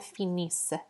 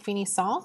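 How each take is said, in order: First: The word ends in a soft s sound. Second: The word ends in a nasal vowel. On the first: The speaker calls it right. "with a little bit of an extra breath at the end" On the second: The speaker calls it wrong. "I'm not saying finissant because that's not how it's pronounced"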